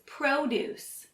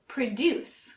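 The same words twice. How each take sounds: First: The stress is on the first syllable. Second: The stress is on the second syllable. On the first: It is a noun meaning fruits and vegetables. "which emphasizes the first syllable, pro" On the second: It is a verb meaning to make something. "That's how we pronounce it when we use it as a verb"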